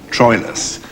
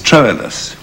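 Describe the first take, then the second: First: The name is said in modern English pronunciation. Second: The name is said in Elizabethan-style pronunciation. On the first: "what we call Troilus" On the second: "they also pronounced ... as Troilus, which sounds more romantic"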